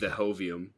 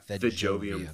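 First: The J sound is silent in the word. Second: The J sound is pronounced in the word.

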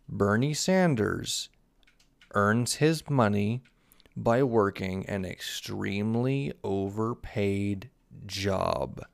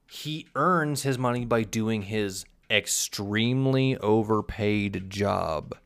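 First: It is said slowly and deliberately. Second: It is said at normal speed.

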